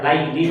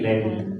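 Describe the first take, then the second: First: The first syllable is a pressed 'lai' diphthong. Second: The first syllable is a plain, easy 'le'. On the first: This is the original Arabic form. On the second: This is the simplified Javanese form. "Kalau di Jawa jadi Leli. ... yang mudah saja"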